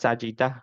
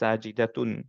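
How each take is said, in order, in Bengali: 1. শেষ অংশটি 'h' ধ্বনিতে বলা হয়। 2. শেষ অংশটি 't' ধ্বনিতে বলা হয়। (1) "সেটাকে আমরা সাজিদাহ বলি" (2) "সাজিদাতুন হওয়ার কথা"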